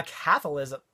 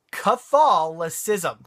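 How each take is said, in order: First: CATHOLICISM fumbled, stressed on the first syllable; stumbled pronunciation. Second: CATHOLICISM very slow, broken into careful syllables; said slowly. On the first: Real, not acted. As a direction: trip over CATHOLICISM at normal pace. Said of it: "I say it wrong". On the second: Shown as a demonstration. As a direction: sound out CATHOLICISM bit by bit, stressing THOL. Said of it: "if I say it slowly".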